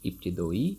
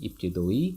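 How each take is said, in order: Both takes have the same delivery.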